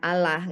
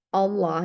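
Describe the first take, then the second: First: Allah is said without the Islamic pronunciation. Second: Allah is said with the Islamic pronunciation. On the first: The speaker calls it wrong. "dan bukan Allah gitu" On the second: The speaker calls it right. "dengan Islamic pronunciation gitu ya. Allah"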